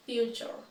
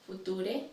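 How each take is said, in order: First: "future" as FYOO-chur; "future" with ch in the middle; correct pronunciation. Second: "Future" read as foo-TOO-deh; "Future" with a pronounced final e; mispronounced. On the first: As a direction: say "future" with a y glide and ch. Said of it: "then I'll say it correctly". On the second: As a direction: say "Future" letter by letter, no y glide, no ch. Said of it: "I will say each one incorrectly". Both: Shown as a demonstration.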